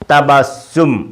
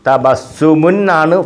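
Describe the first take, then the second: First: The word stops on its final consonant. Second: The word ends with an added -un syllable. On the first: The word stands at the end of a sentence. "Full stop ആയതുകൊണ്ട് സുക്കൂൻ കൊടുത്തത്" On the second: This is the full form of the word.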